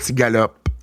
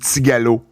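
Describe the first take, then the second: First: The word ends with a final p sound. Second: The word ends without a final p sound. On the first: The speaker calls it wrong. "et non pas tigalope" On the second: The speaker calls it right. "au Québec, on dit tigalo"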